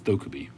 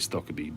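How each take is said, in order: First: The first syllable sounds like 'stoke'. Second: The first syllable sounds like 'stock'. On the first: This is how the man says his own name. The speaker calls it right. "actually, it's Stokerby" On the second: This is how Americans tend to say the name. The speaker calls it wrong. "The Americans seem to say Stockaby"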